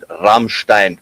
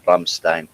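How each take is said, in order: First: It is said with a German pronunciation. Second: It is said with an American pronunciation. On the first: The speaker calls it right. "actually, it's called Rammstein, uh, but yeah, that's German pronunciation" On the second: The speaker calls it wrong. "That's what you call it"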